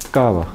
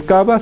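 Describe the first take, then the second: First: "cava" with frictional middle, falling; fricative b. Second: "cava" with a hard b in the middle; "cava" like "kaba", rising; wrong plosive b. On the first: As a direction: let air slip through the v of "cava". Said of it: "no es cava, sino". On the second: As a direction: close the lips fully inside "cava". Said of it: "no es cava". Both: Shown as a demonstration.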